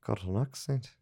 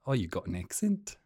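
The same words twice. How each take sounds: First: Higher Kiwi echo, rising; New Zealand accent. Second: Kiwi vowels, rising question; New Zealand accent. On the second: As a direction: ask it in put-on New Zealand. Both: Shown as a demonstration. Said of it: "Kiwi I can do is".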